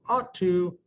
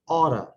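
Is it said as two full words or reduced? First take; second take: full; reduced. First: Both words are said fully and separately. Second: The words blend into one reduced form. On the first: "you ought to often sounds like" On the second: "often sounds like oughta"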